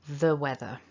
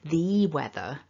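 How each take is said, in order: First: The word 'the' is reduced and unstressed. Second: The word 'the' is full and stressed. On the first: The speaker calls it right. "it's much more natural to say the weather" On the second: The speaker calls it wrong. "it would sound like I'm stressing it"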